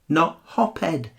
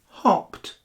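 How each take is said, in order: First: The word does not end with a t sound. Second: The word ends with a t sound. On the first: The speaker calls it wrong. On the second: The speaker calls it right.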